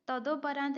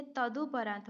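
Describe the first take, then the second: First: तदोपरांत with a long "do"; an o vowel after d in तदोपरांत; wrong form. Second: तदुपरांत with a short "du"; a u vowel after d in तदुपरांत; correct form. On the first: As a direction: say tado-paraant for तदोपरांत. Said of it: "तदोपरांत नहीं होता है". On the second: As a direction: say tadu-paraant for तदुपरांत. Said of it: "ये तदुपरांत होगा". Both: Shown as a demonstration.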